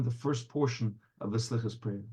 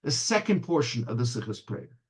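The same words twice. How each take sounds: First: Low, subdued, mildly heavy narration; understated groan in the telling. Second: Mildly brighter storytelling lift; a touch of joy in the telling; a bit joyous. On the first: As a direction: let it sink, softly and heavily. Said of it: "in a groan". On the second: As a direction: start raised and lighter, then settle. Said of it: "a bit more joyously". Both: A narrator's reading.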